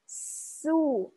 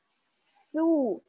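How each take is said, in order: Both takes have the same delivery.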